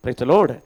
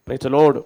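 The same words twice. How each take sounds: The two takes are said the same way.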